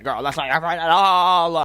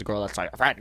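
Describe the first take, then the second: First: Loud, rising wail on the last words; emphatic outburst. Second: Said in the usual way. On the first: Real, not acted. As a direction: belt out the warning, stretching ALL. Warning repeated with drama.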